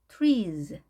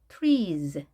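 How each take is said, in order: Both takes have the same delivery.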